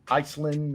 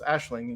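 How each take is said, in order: First: It begins with an 'eye' sound, ending 'land'. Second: It begins with an 'ash' sound, ending 'ling'. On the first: The speaker calls it wrong. "people are like" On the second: The speaker calls it right. "that's Ashling"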